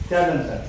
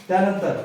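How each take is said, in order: The two takes are said the same way.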